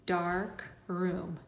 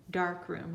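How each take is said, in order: First: "dark room" as two separate, drawn-out syllables. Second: Said in the usual way. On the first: Shown as a demonstration. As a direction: say "dark", pause, then "room". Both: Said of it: "Now put the two together".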